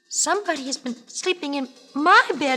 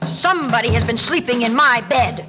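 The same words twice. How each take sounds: First: A small, high, tiny baby bear voice. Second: A deep, growly, roaring father bear voice.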